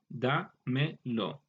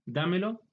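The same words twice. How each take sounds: First: "dámelo" very slowly as da, me, lo; split into parts. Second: Said in the usual way. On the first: Shown as a demonstration. Teacher taking a compound apart for students, "dámelo" slowly piece by piece. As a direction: break "dámelo" into three separate pieces. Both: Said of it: "al compuesto".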